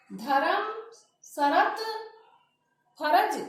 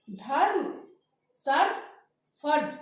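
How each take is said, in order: First: धर्म, शरत, फर्ज as "dha-ram, sha-rat, pha-raj"; wrong full r. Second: धर्म, शर्त, फर्ज as "dharm, shart, pharj"; correct half r. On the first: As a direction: give r its own vowel in धर्म, शरत, फर्ज. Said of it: "नहीं करना है". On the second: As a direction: close r straight onto the next consonant in धर्म, शर्त, फर्ज. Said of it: "की तरह से बोलना है". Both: Shown as a demonstration.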